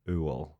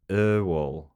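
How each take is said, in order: First: The first vowel sounds like 'oo'. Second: The first vowel sounds like 'er' in burn. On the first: The speaker calls it wrong. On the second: The speaker calls it right.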